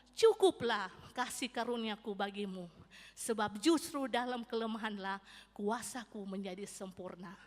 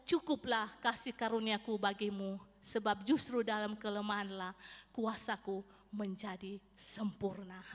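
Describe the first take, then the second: Both takes have the same delivery.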